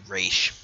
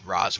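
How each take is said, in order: First: The name rhymes with 'dish', ending in sh. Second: The name rhymes with 'was', ending in z. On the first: The speaker calls it right. "when it's really Raish" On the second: The speaker calls it wrong. "it's a common mistake to be called Roz"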